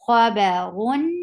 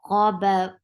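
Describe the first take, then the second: First: The word ends with a nasal 'un' sound. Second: The word stops on a heavy 'r' sound. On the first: The reader continues without stopping. "Give the wasut at the end" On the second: The reader stops at this word. "You will give uh, sukoon at the end"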